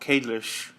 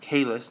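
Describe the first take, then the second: First: The name ends with a lisped sh-like sound. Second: The name ends with a clear s sound. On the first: The speaker calls it wrong. "not in the show Kalish" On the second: The speaker calls it right. "it's pronounced Kahless"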